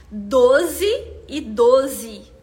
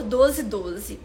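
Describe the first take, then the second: First: Very slow, each syllable spaced out; "Doze e doze" drawn out syllable by syllable as if counting; counting syllables slowly. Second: Said in the usual way. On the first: Shown as a demonstration. Teacher spelling out the price's syllables to the live audience, very slow and deliberate. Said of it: "Nós temos quatro sílabas". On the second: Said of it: "quatro sílabas pra pronunciar esse valor".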